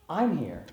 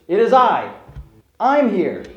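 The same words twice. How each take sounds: First: "I'm" leaned on, but said softly and close; a quiet, reassuring weight on "I'm"; softer stress on I. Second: "I" punched loud and high, each time; stress on I. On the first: Preacher voicing Jesus reassuring the disciples, soft stress on "I'm". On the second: Preacher voicing Jesus to the frightened disciples, loud stress on "I". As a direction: hit the word "I" hard and proud, as Jesus calling across the storm. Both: Shown as a demonstration. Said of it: "I'd like to emphasize that word "I".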